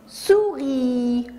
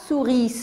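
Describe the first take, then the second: First: The final S is silent. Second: The final S is pronounced aloud. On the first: The speaker calls it right. "On dit souris. ... Le S est muet" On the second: The speaker calls it wrong. "On ne dit pas souris"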